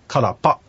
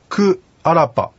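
First: The two words are contracted into one word. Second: The two words are said separately and in full. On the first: "サルガー流域ではこれが縮まりまして" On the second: "私が行くという言い方ですけども"

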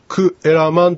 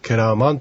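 First: The parts are said separately, as ku eraman. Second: The parts run together, as keraman. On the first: "くえらまんというのが、" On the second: "続けて発音されて、けらまんというふうになります"

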